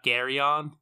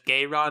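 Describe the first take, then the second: First: The r and y sounds are in normal order. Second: The r and y sounds come out swapped. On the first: The speaker calls it right. "not Geryon" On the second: The speaker calls it wrong. "the Y and the R were backwards when I first read it in my brain, so I read it as Geryon"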